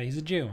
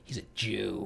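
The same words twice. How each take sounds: First: It is said in a plain, neutral tone. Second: It is said with a sneering, contemptuous tone.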